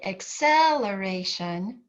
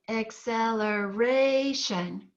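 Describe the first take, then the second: First: The stress is on the second syllable. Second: The stress is on the fourth syllable. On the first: The speaker calls it wrong. "You don't say acceleration" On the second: The speaker calls it right. "You say acceleration"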